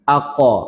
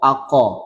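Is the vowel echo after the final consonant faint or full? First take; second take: full; full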